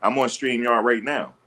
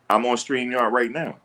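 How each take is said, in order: Both takes have the same delivery.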